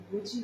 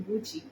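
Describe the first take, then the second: No difference in how they are said.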